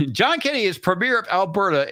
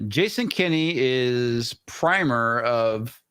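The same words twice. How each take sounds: First: "premier" said properly as pruh-MEER; corrected "premier", stress on the second syllable, MEER; corrected pronunciation. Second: "primer" said like the word primer, PRY-mer; mispronounced word. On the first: Shown as a demonstration. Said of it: "Fucking primer". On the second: Real, not acted. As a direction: says "primer" instead of premier, first syllable PRY.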